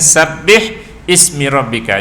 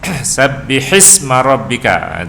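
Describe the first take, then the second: First: The h is silent with no vowel. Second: The h carries a short i vowel. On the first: The speaker calls it wrong. "asalnya mati... Jadi kan susah baca" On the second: The speaker calls it right. "jadi diletakkan baris bawah pada ha"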